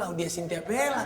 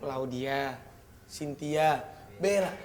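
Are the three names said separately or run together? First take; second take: together; separately. First: The names run together without pauses. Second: The names are separated by clear pauses. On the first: Together they form one person's full name. "Kalau digabungin" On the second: They are three separate people's names. "Kalau dipisahin sendiri-sendiri"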